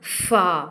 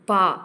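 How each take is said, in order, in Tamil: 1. இது f ஒலியில் ஆரம்பிக்கிறது. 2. இது மூச்சொலி சேர்ந்த p ஒலியில் ஆரம்பிக்கிறது. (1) "ஃபா அப்படின்னு உச்சரிக்கணும்" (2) "புள்ளி இல்லை அப்படின்னா அது எப்படி யூஸ் உச்சரிக்கணும் அப்படின்னா பா"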